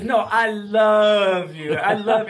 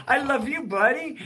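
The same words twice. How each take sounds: First: Put-on slow, loud, insistent little-kid voice; insistent toddler. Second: Put-on high, cooing reply to a toddler; tender reply. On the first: Two-year-old grandson insisting to grandpa, slow and loud. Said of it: "He goes". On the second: Grandpa answering his grandson, high and cooing. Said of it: "And I go".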